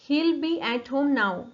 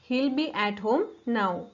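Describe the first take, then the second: First: He will is contracted into one syllable. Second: He will is contracted into one syllable.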